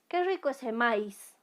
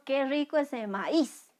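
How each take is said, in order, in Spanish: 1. La a y la i se unen en una sola sílaba. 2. La i forma sílaba aparte y lleva el acento. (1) "si aquí no le pusiéramos ... tilde a esta vocal, el sonido sería maíz" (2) "No, decimos qué rico ese maíz"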